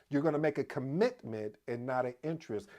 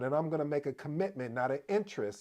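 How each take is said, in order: First: It is said slowly and deliberately. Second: It is said at a normal, quick pace.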